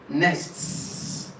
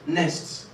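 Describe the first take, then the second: First: The final s sound is stressed and clear. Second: The final s sound is blurred and unclear. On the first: The word is clearly in plural form. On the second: It is unclear whether the word is singular or plural.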